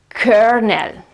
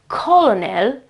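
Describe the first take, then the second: First: It is said like kernel, with an R sound. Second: It is said as spelled, with an L sound. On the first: The speaker calls it right. "it's kernel" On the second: The speaker calls it wrong. "the pronunciation is not colonel"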